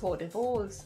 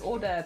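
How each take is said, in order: First: The word is sounded out letter by letter. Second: The word is said with its silent letters. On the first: A child misreads the written word. The speaker calls it wrong. "If you look at the words and you're a kid" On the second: This is the actual pronunciation. The speaker calls it right. "is what it actually is"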